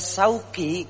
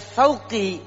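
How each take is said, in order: First: The name begins with a plain s sound. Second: The name begins with a th sound. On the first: The name means market. "menggunakan sin, maka artinya nama saya jadi pasar" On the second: The name means thorn. "menggunakan huruf sa, maka jadinya artinya duri"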